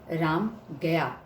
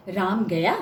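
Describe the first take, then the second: First: Ram गया slow, with गया falling at the end; statement tune. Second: Ram गया with गया drawn out and rising sharply at the end; questioning tune. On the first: Teacher showing an informative sentence, Ram गया stated with a falling tune. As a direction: state it evenly, letting गया drop. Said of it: "ये सूचनात्मक है". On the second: Teacher showing how tune changes meaning, Ram गया asked as a question. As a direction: ask it, sweeping गया upward. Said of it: "प्रश्नवाचक है". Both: Shown as a demonstration.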